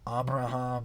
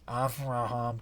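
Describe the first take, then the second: First: It sounds nasal and congested, with a b sound. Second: It sounds clear and open, with a v sound. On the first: The speaker calls it wrong. "you sound like you're pinching your nose" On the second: The speaker calls it right. "I mean like Avraham"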